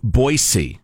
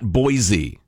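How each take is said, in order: First: The middle consonant is a soft s sound. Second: The middle consonant is a buzzing z sound. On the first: The speaker calls it right. "there is no Z in Boise. It's pronounced Boise" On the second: The speaker calls it wrong. "not Boise"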